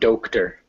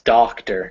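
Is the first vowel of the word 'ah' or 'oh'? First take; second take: oh; ah. First: The first vowel sounds like 'oh'. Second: The first vowel sounds like 'ah'. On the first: The speaker calls it wrong. "not doctor" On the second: The speaker calls it right. "it's doctor"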